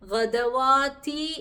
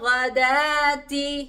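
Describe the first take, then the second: First: A w sound is heard before the long a. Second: A long a is heard with no w sound. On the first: The speaker calls it wrong. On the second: The speaker calls it right.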